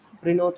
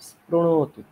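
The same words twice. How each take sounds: First: The ṛ sound is said like 'ri'. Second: The ṛ sound is said like 'ru'. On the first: The speaker calls it wrong. "স্পৃণোতু নয়" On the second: The speaker calls it right. "রিকারকে রু বলতে হবে"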